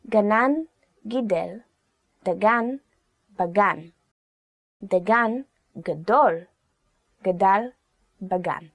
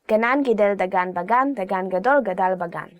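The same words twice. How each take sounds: First: It is said slowly. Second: It is said fast.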